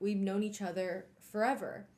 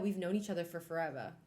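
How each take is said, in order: First: It is said in the speaker's normal accent. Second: It is said in an odd put-on accent.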